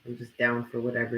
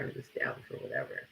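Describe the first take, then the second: First: Said in the usual way. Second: I'm just down for whatever whispered, much softer and lower. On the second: Shown as a demonstration. Repeating her stance to viewers, whispered. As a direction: breathe it out as a whisper.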